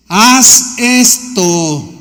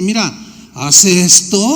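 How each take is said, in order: First: "Haz esto" dragged out very slowly and loud, each word pressed; the preacher voicing Jesus, hammering the command home; emphatic command. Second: "Mira, haz esto" said simply and gently, a little slow; simple and gentle. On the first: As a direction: lay down "Haz esto" as a heavy, drawn-out order. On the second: Acted. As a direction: offer "Mira, haz esto" as plain friendly advice. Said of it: "de manera tan sencilla".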